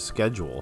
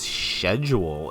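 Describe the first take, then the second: First: The word is pronounced in an ordinary way. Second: The word is pronounced in a fancy way. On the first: The speaker is ordinary. "instead of schedule" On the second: The speaker is posh. "he's fancy. You know that because he says schedule"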